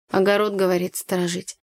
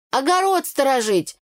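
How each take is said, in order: First: Said in the usual way. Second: Higher, emphatic ОГОРОД СТОРОЖИТЬ; scoffing exclamation. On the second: A narrator's reading. Tanya scoffs about dogs' purpose, «Огород сторожить» said emphatically. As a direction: exclaim «Огород сторожить» with a high start, falling.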